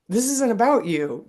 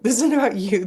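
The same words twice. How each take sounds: First: Firm, higher mock lecture to a kid; mock stern parent. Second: Higher, louder line broken by a laugh; laughing mock scolding. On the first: Mother imagining a talk in the car, mock stern. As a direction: lay down the law, half in jest. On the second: Mother repeating the imagined lecture, laughing.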